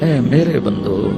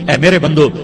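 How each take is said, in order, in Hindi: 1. यह नरम, प्यार भरे लहजे में कहा गया है। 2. यह सादे, बिना प्यार के लहजे में कहा गया है।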